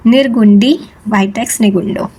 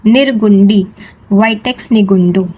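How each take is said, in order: First: Said in the usual way. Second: Each syllable of निर्गुंडी, vitex nigundo drawn out very slowly for the class to echo; slow repeat-after-me. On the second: Shown as a demonstration. Teacher leading students to repeat the plant name, slow and clear. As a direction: spell it out slowly so they can say it with you. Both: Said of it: "कहो मेरे साथ एक बार".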